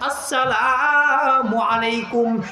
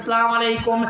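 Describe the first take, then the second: First: The opening vowel sound is fully pronounced. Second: The opening vowel sound is clipped or dropped. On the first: The speaker calls it right. "শুরুতে আলিফটাকে উচ্চারণ করে দিতে হবে" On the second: The speaker calls it wrong. "আজকে সমাজের মধ্যে একটা ফ্যাশন হয়ে গেছে"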